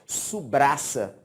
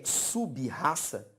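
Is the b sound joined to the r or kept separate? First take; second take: joined; separate. First: The b and r blend into one cluster. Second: The b and r are in separate syllables. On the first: "o fato de juntar um B com R traz um problema" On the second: "o que você está lendo aqui na tela é sub-raça? Não"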